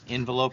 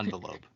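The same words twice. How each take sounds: First: The first syllable sounds like 'in'. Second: The first syllable sounds like 'on'. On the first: "it was more between in and on" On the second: "it was more between in and on"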